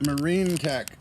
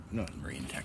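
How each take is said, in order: First: Loud slip. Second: Said in the usual way. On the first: Real, not acted.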